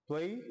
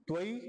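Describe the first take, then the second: No difference in how they are said.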